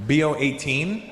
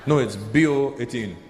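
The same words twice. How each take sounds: First: Rising, questioning echo; puzzled echo, lifting at the end. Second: Low, firm correction; falling, matter-of-fact correction; correcting. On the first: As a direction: repeat it back as a query. Comedian queries the odd name. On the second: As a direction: state it as a settled fact. Friend corrects the confused comedian. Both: Acted.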